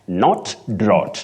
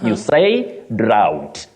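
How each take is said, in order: First: The vowel is a plain vowel without glide. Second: The vowel glides as in ow. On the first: The speaker calls it wrong. "that is wrong" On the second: The speaker calls it right. "That word has what we call the diphthong, ow"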